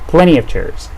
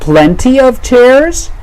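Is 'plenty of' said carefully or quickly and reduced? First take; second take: quickly reduced; carefully. First: The words are run together quickly and reduced. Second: Each word is said fully and carefully.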